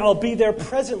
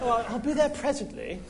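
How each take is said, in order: First: It is said in his normal accent. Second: It is said in a British accent.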